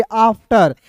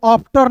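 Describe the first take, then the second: First: आफ्टर with a long open "aa" start; correct pronunciation. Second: आफ्टर with a puffed P for F, "aphtar"; wrong pronunciation. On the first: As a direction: say आफ्टर as "aaf-tar". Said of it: "इसे पढ़ेंगे आफ्टर". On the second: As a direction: say आफ्टर with lips closing on ph. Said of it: "आफ्टर नहीं पढ़ेंगे". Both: Shown as a demonstration.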